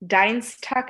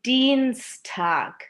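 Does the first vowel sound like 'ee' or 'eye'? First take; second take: eye; ee. First: The first vowel sounds like 'eye'. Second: The first vowel sounds like 'ee'. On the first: The speaker calls it wrong. "Dienstag না" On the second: The speaker calls it right. "এটা হবে Dienstag"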